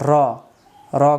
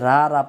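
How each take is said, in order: First: The vowel is a short, rounded 'o'. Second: The vowel is an open, long 'a'. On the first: The speaker calls it right. "আরবি সহি উচ্চারণ হলো" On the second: The speaker calls it wrong. "অনেকে রা রা পড়ি কিন্তু রা না"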